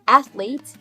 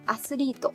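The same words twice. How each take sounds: First: It is said the English way, ending in t. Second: It is said the Japanese way, ending in to.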